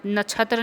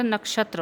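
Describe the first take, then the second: First: नक्षत्र with chh in place of ksh; wrong pronunciation. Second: नक्षत्र with a clear ksh; correct pronunciation. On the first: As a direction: say नक्षत्र as nachhatra. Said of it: "नक्षत्र नहीं होता". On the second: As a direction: say नक्षत्र as nakshatra. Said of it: "नक्षत्र होता है". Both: Shown as a demonstration.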